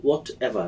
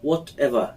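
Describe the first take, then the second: No difference in how they are said.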